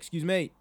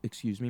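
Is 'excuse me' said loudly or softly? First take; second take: loudly; softly. First: It is said loudly and forcefully. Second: It is said softly and politely. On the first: A request meant to be noticed over the noise. The speaker calls it right. "you have to be noticeable" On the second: A polite request that may go unnoticed. The speaker calls it wrong. "instead of being like"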